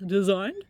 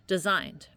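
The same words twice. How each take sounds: First: "Designed?" with a rising question tune. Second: "Designed." with a falling, settled tune; plain statement. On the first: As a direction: ask "Designed?" doubtfully, pitch going up. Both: Shown as a demonstration.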